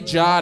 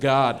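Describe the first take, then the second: First: The word starts with a soft J sound. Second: The word starts with a hard G sound. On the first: The speaker calls it wrong. "Say Jod instead of God" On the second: The speaker calls it right. "instead of God"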